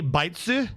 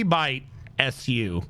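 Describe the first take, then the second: First: "Bitsu" said as one smooth two-syllable word, BIT-su; correct name. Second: "Bite S U" read slowly as three separate parts, like the text-to-speech voice; spelled-out misreading. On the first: Shown as a demonstration. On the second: Retold or imitated. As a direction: spell out "Bite S U" word by word, the way the robot reads it. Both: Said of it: "It couldn't say Bitsu?".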